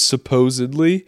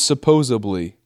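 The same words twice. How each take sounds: First: The word is said the standard way. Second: The word is said with a different middle sound. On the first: The speaker calls it right. "mine was supposedly" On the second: The speaker calls it wrong. "I thought it was supposedly"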